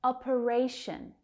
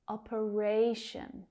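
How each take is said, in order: First: Said in the usual way. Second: "Operation" slowly as op-uh-RAY-shun; third syllable stressed. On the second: Shown as a demonstration. Teacher showing the stressed syllable, "Operation" with long RAY. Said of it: "That third syllable is stressed".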